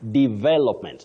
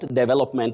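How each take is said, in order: First: The stress is on the second syllable. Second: The stress is on the first syllable. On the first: The speaker calls it right. "with a stress on that second syllable" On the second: The speaker calls it wrong. "the way many people innocently say"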